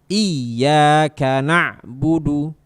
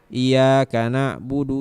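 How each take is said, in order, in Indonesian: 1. Bunyi y-nya bertasydid dan ditekan. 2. Bunyi y-nya tunggal dan tidak ditekan. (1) "Ya-nya bertasydid, ingat, ditekan" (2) "jadi nggak ditekan, maka artinya bisa bisa salah"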